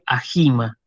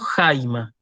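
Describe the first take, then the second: First: The h sound comes between the two vowels. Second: The h sound comes before the first vowel. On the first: The speaker calls it wrong. "y no digo, por ejemplo, Ajima" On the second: The speaker calls it right. "Por eso digo Jaima"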